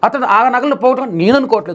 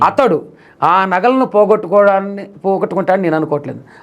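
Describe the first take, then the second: First: The stress falls on the word నేను. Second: The stress falls on the word అతడు. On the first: "నువ్వు అనుకోవచ్చు కదా!" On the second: "అతడు అని వచ్చింది"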